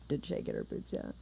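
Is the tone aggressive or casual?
casual. It is said in a casual tone.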